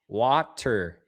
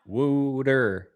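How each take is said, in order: First: The word is said in a standard accent. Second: The word is said in a Philadelphia accent. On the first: The speaker calls it right. "It's water" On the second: The speaker calls it wrong. "Anyone from Philly says water weird. They call it wooter"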